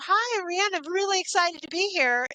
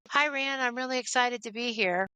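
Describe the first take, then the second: First: The tone is lively and enthusiastic. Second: The tone is flat and unenthusiastic. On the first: The speaker is genuinely glad to be there. "the inflection of my my tone on the words can make a huge difference" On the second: The speaker does not really want to be there. "maybe we shouldn't do this today"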